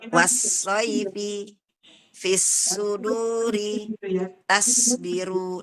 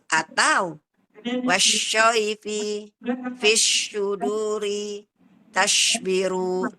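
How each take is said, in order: First: The s-sound is light and thin. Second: The s-sound is pronounced like sh. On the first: "Yang salah biasanya begini" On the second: "jadi terbacanya dia jadi shin ya"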